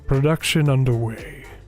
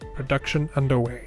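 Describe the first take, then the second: First: It is said in an imitated announcer-like voice. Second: It is said in an ordinary speaking voice.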